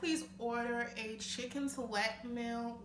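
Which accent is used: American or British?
American. It is spoken in an American accent. "If I was to say that with an American accent"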